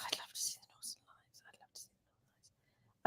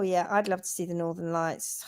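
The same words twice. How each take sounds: First: Barely audible whisper; faint whisper. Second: Soft wistful whisper. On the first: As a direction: breathe it almost silently. Repeated in fading whisper. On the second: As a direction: whisper it dreamily. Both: Shown as a demonstration.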